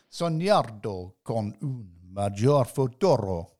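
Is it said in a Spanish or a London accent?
Spanish. It is said trying for a Spanish accent.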